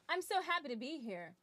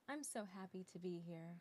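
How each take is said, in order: First: It is said loudly, with big theatrical energy. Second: It is said quietly, in a conversational way. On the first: It is played for a big theater audience. The speaker calls it wrong. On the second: It is played as a natural, everyday conversation. The speaker calls it right.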